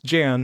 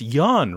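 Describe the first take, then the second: First: The name begins with a J sound. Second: The name begins with a Y sound. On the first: The speaker calls it right. "no, it's Jan" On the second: The speaker calls it wrong. "oh, it's pronounced Yan, right?"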